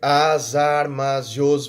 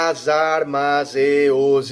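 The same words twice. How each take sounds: First: The words 'e' and 'os' merge into one syllable. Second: The words 'e' and 'os' are said separately. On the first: The speaker calls it right. "eu juntei as duas sílabas e os para formar uma só" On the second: The speaker calls it wrong. "ninguém fala as armas e os, isso parece é ridículo"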